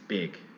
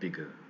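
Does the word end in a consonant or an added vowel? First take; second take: consonant; added vowel. First: The word ends cleanly on the consonant. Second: An extra vowel is added after the consonant. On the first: The speaker calls it right. "It's big" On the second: The speaker calls it wrong. "it's not bigu"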